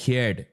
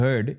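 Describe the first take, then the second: First: "heard" as a non-CBSE Chennai student says it; "heard" in local Chennai school accent; non-CBSE student pronunciation. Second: "heard" as a Chennai CBSE student says it; "heard" in Chennai CBSE accent; CBSE student pronunciation. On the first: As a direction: say "heard" with a flattened "hyerd" vowel. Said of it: "school student would say". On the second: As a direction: say "heard" with a rounded "er" vowel, Chennai school style. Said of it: "this guy would say". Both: Shown as a demonstration.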